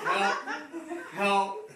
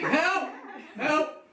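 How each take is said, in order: First: It is said quietly and hesitantly. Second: It is shouted loudly and confidently.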